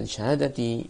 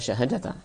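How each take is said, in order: First: The word ends with the vowel i. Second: The word ends with the vowel a. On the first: The word is in the genitive case. "semuanya di kasrah" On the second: The word is the object of an implied verb. "bisa juga ini kita baca syahadata"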